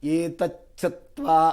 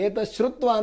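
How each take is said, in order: First: The parts are joined with a 'ch' sound. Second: The parts are split with an 'sh' sound. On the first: The speaker calls it right. "ಏತಚ್ಛತ್ವ ಮಹಾತೇಜ ಅಂತ ಹೇಳ್ತಾರೆ" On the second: The speaker calls it wrong. "ಅಂತ ಕೆಲವರು ಹೇಳ್ಬಿಡ್ತಾರೆ. ಅದು ಬೇರೆ ಆಗತ್ತೆ"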